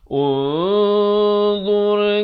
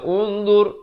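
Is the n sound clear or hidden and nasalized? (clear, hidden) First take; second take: hidden; clear. First: The n is hidden, nasalized and held long. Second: The n is pronounced clearly and briefly. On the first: The speaker calls it right. "dibacakan dengan samar. Jadi ikhfa dua harakat" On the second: The speaker calls it wrong. "Jangan baca unzur, unzur, itu tak betul"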